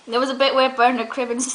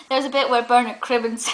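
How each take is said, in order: Both takes have the same delivery.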